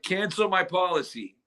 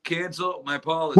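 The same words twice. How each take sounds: First: Measured request to an automated line; caller to a phone bot. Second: Louder, mock-frustrated caller repeat; insistent repeat. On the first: Retold or imitated. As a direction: state it plainly for a machine. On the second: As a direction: push it out for a machine that misheard. Caller repeating for phone bot.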